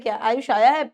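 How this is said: It is said as a question.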